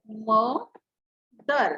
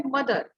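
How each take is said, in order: First: मदर very slowly as "म", long pause, "दर"; split syllables. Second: Said in the usual way. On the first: Shown as a demonstration. Teacher demonstrating two sounds, मदर slowly split as म - दर. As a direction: break मदर into two drawn-out beats. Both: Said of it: "टू sounds आ रहे हैं".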